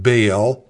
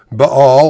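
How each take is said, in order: First: Baal said as one syllable, rhyming with "pale"; everyday anglicized pronunciation. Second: Baal said in two syllables, "bah-AHL", second one stressed and loud; two-syllable pronunciation. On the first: Preacher showing how we would pronounce it, Baal as "bale". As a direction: say Baal like the English word "bale". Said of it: "as we would perhaps pronounce it". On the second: Preacher giving the word broken down for listeners, Baal pronounced "bah-AHL". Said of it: "or as we would perhaps pronounce it". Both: Shown as a demonstration.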